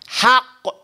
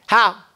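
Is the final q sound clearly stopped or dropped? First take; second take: stopped; dropped. First: The final q is held and clearly stopped. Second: The final q sound is dropped entirely. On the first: The speaker calls it right. "how you trap that sound" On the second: The speaker calls it wrong. "You'll sound like an Egyptian"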